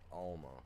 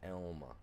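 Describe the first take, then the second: First: The first syllable sounds like 'al' in 'pal'. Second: The first syllable sounds like the letter L. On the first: The speaker calls it wrong. "not Alma" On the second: The speaker calls it right. "Elma, not Alma, even though it's A L M A"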